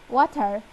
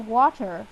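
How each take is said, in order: First: It is said in an Indian accent. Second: It is said in an American accent. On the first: "I'm gonna add an Indian accent" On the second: "in American we say water"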